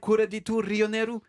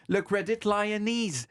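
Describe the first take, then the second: First: It is said with a Japanese accent. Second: It is said with an English accent. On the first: "En japonais" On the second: "prononcé en anglais, ça fait"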